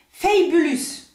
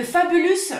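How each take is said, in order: First: Fabulous with an English "fay" first syllable, French-tinged; attempted English accent. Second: Said in the usual way. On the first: Shown as a demonstration. Vlogger trying the polish's English name, attempted English accent. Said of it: "mon accent anglais est, est complètement nul". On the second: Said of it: "mon accent anglais est".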